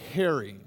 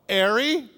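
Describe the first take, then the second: First: The H is pronounced in a standard accent. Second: The H is dropped in a Cockney accent. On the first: "Instead of Harry" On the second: "its Cockney pronunciation"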